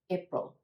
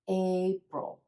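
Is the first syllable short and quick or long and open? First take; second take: short; long. First: The first syllable is short and rushed. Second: The first syllable is long and open. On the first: The speaker calls it wrong. "pronounce this first syllable too quickly" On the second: The speaker calls it right. "open up the mouth a bit, let the chin come down for the A"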